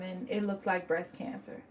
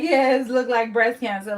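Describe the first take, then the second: First: Said in the usual way. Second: Louder mock-casual "Yes, look like breast cancer"; mocking offhand verdict. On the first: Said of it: "And she was like". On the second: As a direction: parody the flat offhand diagnosis, louder. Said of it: "how do you just go from".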